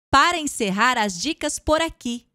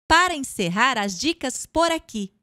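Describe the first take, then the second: No difference in how they are said.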